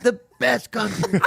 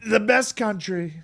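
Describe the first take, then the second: First: Slow throaty Trump, laughing; lightly voiced Trump; Trump impression. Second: Slow throaty Trump; Trump impression. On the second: Shown as a demonstration. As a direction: Trump rally delivery. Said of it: "the easiest way to do Trump is".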